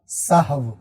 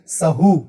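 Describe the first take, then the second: First: The word ends with a v sound. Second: The word ends with a long oo vowel. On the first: The speaker calls it right. "ये लफ़्ज़ है सहव" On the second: The speaker calls it wrong. "तो ये गलत है"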